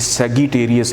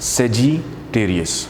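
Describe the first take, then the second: First: It is said with a hard g sound. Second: It is said with a j sound. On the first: The speaker calls it wrong. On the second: The speaker calls it right.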